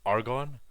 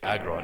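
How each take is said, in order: First: The r comes before the g. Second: The r comes after the g. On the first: "this element over here is pronounced argon" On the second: "I'm calling it agron anyways because it sounds similar enough"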